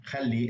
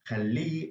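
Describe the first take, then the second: First: Said in the usual way. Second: Khalli with higher, stressed final -li; stress on last syllable. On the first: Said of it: "whereas just". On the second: Shown as a demonstration. Teacher explains "let him", last syllable of khalli stressed. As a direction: hit and hold the end of khalli. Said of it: "is with the ha at the end".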